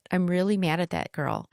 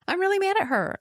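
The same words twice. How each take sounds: First: Said in the usual way. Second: Much higher, emphatic "really mad"; exasperated outburst. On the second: Real, not acted. Speaker venting at her younger self, high and exasperated.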